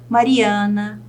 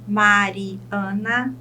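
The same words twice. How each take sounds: First: Said in the usual way. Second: Slow "Mariana", broken into its syllables. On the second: Shown as a demonstration. Teacher shows a polysyllable to students, "Mariana" syllable by syllable. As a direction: draw out and separate the syllables of "Mariana". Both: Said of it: "eu chamo de polissílaba".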